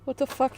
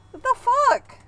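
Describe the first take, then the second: First: Said in the usual way. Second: Much higher, louder shocked exclamation; high startled outburst. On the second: Acted. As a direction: blurt it out in disbelief. Shocked reaction retaken higher.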